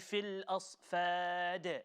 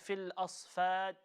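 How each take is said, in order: First: The final consonant is released with a clear bounce. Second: The final consonant stops flat with no bounce. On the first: The speaker calls it right. "Let the bounce take place" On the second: The speaker calls it wrong. "the qalqala was not there at all"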